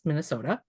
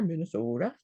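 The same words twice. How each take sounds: First: Said in the usual way. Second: "Minnesota" in a Minnesota accent with a pure, rounded long o in the middle. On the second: Shown as a demonstration. Artist shows the gallery audience her Minnesota accent. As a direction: play up the hometown Minnesota accent on "Minnesota". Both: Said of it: "with my best accent on there".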